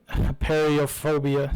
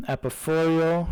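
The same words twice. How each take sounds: First: Said in the usual way. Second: Mangled game name, "Apophorial"; botched Apophorial. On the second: Real, not acted. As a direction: garble the name as "Apophorial", ending in "-forial". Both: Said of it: "I said it like that".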